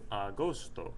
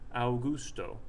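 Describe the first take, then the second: First: The word begins with a plain 'a' sound. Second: The word begins with an 'ow' sound. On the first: The speaker calls it right. "He says agosto" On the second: The speaker calls it wrong. "it would sound like Augusto"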